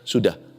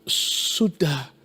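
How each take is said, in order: First: It is said flatly, without any hesitation. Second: It is said hesitantly, after a fearful pause. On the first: It is only a plain answer. "Kalau kita baca sekilas saja kan, hanya jawabannya sudah" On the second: The speakers are afraid of the listener's reaction. "saya bacanya begini tuh, jawab mereka, e, sudah. Mereka takut"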